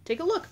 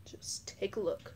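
First: High excited call. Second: Breathy secret whisper. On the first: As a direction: jump up high and loud. Toy play, same line again. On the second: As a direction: hush it like a secret. Toy play, hushed line. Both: Pretend.

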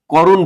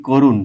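First: "করুণ" as "kawrun", open aw after k; open first vowel. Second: "করুণ" said as "korun", closed o after k; first vowel as o. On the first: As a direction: show the wrong "করুণ", first vowel as in "law". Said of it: "করুণ বলি না". ("করুণ"-এর প্রথম স্বর বিবৃত অ) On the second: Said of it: "ও এর মতো উচ্চারণ করছি". ("করুণ"-এর প্রথম স্বর ও-এর মতো) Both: Shown as a demonstration.

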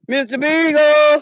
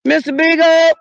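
First: Slow, drawn-out loud call; calling for the dog. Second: Loud, high, quick call; calling for the dog. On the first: Owner calling again for lost dog, long drawn call. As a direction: stretch the name long into the woods. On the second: Owner calling lost dog in the woods, quick loud call. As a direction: snap the name out loud and high. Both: Real, not acted.

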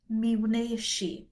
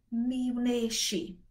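The two takes are said the same way.

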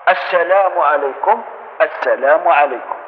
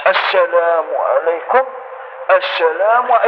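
First: Correct gentle salam. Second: Slow salam while leaning the whole body; wrong salam demo. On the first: Teacher showing worshippers the right salam, slow and gentle. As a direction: turn just the cheek, slowly. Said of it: "الخد اللي يدور فقط". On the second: Teacher imitating worshippers who lean, slow mock salam. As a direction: lean and drawl out the greeting. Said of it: "بعض الناس يميل هكذا". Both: Shown as a demonstration.

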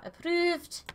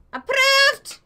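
First: Rising, unforced pitch lift; questioning approval. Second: High, loud proclamation; shouted approval. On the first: Real, not acted. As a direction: say it tentatively, lifting upward. First reading of stamp. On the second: Pretend. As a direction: yell the verdict with a flourish. Repeats it as a shout.

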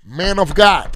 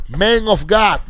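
First: Loud, high call of Man of God; a housekeeper calling loudly through the door. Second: Man of God called loud, high and very slow; drawn-out call. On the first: Housekeeper calls the preacher through the hotel door, loud and high. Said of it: "fue una housekeeping, una afroamericana, y me tocó la puerta". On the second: Housekeeper calls the preacher, loud, high and drawn out. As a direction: stretch every word of the call out. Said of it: "Una afroamericana, una houseco-, housekeeping". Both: Retold or imitated.

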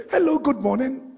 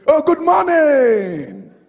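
First: Said in the usual way. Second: Loud, slow, rising hello with a beaming lift; cheery greeting. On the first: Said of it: "They say, they say". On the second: Retold or imitated. Pastor imitating a stranger's cheerful greeting, loud and slow. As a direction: greet them like you're thrilled to see them, drawn out. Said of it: "They say".

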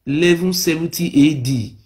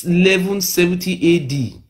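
Both takes have the same delivery.

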